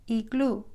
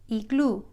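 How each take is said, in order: No difference in how they are said.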